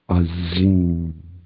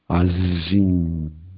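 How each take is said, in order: First: The middle consonant is a buzzing 'z' sound. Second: The middle consonant is a buzzing 'z' sound.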